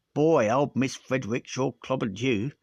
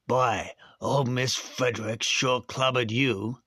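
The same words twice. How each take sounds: First: Said in the usual way. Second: Put-on slower, American accent for the boy; American accent retake. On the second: Shown as a demonstration. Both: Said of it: "probably American".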